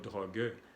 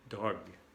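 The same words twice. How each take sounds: First: The final e is pronounced. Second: The final e is silent. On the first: The speaker calls it wrong. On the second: The speaker calls it right. "La E al final no se pronuncia"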